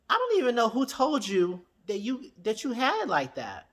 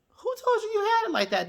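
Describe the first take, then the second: First: Said in the usual way. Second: A high, sassy mock of her own question. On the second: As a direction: jump way up high for the mocking repeat. Mock repeat at Destiny.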